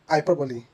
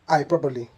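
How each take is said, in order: First: The word has four syllables. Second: The word has four syllables.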